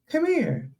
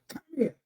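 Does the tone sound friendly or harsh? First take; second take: friendly; harsh. First: The tone sounds warm and inviting. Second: The tone sounds sharp and stern. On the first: The listener feels welcome to approach. "you're probably more inclined to come over and see" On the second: The listener wants to avoid the speaker. "I'm going the other way. I don't even want to have to deal with you"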